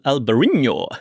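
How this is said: It is said with a Spanish accent.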